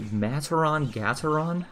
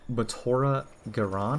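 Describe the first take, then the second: First: The name is said as Mataron Gataron. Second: The name is said as Matora Garan. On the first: "I pronounced it Mataron Gataron" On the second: "His name is Matora Garan, I think"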